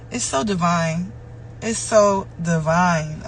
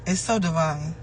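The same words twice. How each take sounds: First: "It's so divine" stretched out very slowly; drawn-out, reverent "so divine"; slowed, savoring. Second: Said in the usual way. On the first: Real, not acted. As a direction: let each word of "It's so divine" linger. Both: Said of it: "repeated phrase".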